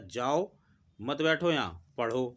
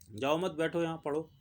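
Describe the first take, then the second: First: The pause comes after the word जाओ. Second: The pause comes after the word मत.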